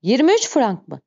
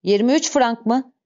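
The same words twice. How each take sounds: First: "Yirmi üç frank mı?" as exclamation more than question; exclaimed repeat. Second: Mildly astonished question, ÜÇ lifted; "Yirmi üç frank mı?" asked in disbelief, understated; surprised. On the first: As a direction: punch ÜÇ in amazed disbelief. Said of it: "ünlem işaretini soru işaretinden ayıran ince bir vurgu farkı". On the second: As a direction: query the sum with a touch of surprise. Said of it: "şaşkınlığını belli edercesine sordu". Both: A narrator's reading.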